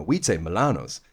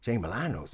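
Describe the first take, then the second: First: Milano's with long AH, "mih-LAH-nohs"; English pronunciation. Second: Milano's with short A, "mih-LAN-ohs"; Irish pronunciation quoted. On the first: English client showing her own way, "Milano's" with long AH. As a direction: open the middle of "Milano's" out to LAH. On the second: Client quoting Irish actor back, "Milano's" with short A. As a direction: keep the A of "Milano's" short, as in "man". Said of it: "she's like". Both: Retold or imitated.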